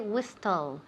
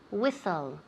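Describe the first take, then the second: First: The t sound is pronounced in the middle. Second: The t sound is silent in the middle. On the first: The speaker calls it wrong. "We never say whistle" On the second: The speaker calls it right. "The T is silent"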